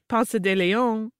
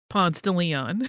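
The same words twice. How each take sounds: First: The name is said the prettier way outsiders say it. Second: The name is said in the local Atlanta way. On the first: The speaker is not from the area. "when visitors come and they say Ponce de Leon, it sounds so much prettier" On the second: The speaker is from the area. "in Atlanta we call"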